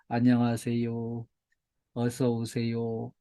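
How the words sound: The greeting is mumbled quietly and listlessly.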